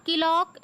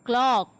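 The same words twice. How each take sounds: First: "clock" broken into ki-lock; wrong pronunciation. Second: "clock" in one syllable, kl blended; correct pronunciation. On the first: Teacher rejecting a mistake, two-syllable "clock" as ki-lock. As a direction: add a short i inside "clock" after the k. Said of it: "It is not clock". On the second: Teacher correcting learners, blended one-syllable "clock". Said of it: "it is clock". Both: Shown as a demonstration.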